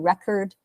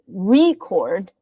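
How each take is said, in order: First: It is said with the noun pronunciation. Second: It is said with the verb pronunciation. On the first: A written document about something. "a record is like uh, maybe like a written a written document" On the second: To take an account of something. "record is the verb"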